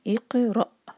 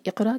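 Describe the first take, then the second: First: इक़रा louder, क़ cut off sharply; recitation demo. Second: इक़रा higher and louder, wrongly voiced; deliberately wrong इक़रा; wrong version. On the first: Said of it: "इस तरह आवाज़ आनी चाहिए". (इक़रा, सांस रुकने जैसी) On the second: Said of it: "वो तो वर्ड सही नहीं है". (ग़लत उच्चारण इक़रा) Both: Shown as a demonstration.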